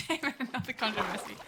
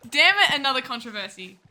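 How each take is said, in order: First: Softer, quick aside of mock frustration; muted mock dismay. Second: Loud mock dismay. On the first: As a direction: grumble it quickly under your voice. Mock dismay, first quieter take. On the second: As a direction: exclaim the curse, then ease off. Mock dismay, repeated louder.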